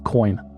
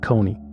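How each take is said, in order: First: The name is one syllable, like 'coin'. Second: The name has two syllables, like 'bony'. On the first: This is how people from the country say it. The speaker calls it right. "Ugandans pronounce it Joseph Coyne" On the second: This is how the video's makers said it. The speaker calls it wrong. "not Kony"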